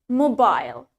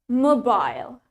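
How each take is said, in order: First: The word is said in a British accent. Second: The same.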